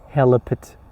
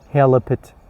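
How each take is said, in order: Both takes have the same delivery.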